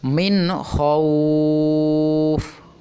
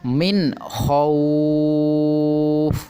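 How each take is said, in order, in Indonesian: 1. Vokal pada khauf dibaca panjang. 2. Vokal pada khauf dibaca panjang.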